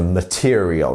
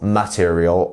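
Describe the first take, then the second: First: The stress is on the second syllable. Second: The stress is not on the second syllable. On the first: The speaker calls it right. "It's the second syllable that is our stressed one here" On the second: The speaker calls it wrong. "not material"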